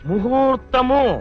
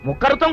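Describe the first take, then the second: First: The middle consonant is a soft 'h' sound. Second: The middle consonant is a harsh 'kh' sound. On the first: The speaker calls it right. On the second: The speaker calls it wrong.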